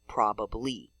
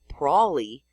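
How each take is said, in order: First: The word is said with every syllable full. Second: The word is reduced, with a syllable dropped. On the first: "the older versions preserved in spelling" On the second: "Most people say ... probably"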